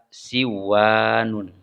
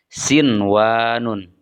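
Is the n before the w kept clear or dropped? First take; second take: dropped; clear. First: The n before the w is dropped. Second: The n before the w is pronounced clearly. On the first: The speaker calls it wrong. "Tidak dibaca siwanun" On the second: The speaker calls it right. "dibacanya harus idhar atau jelas"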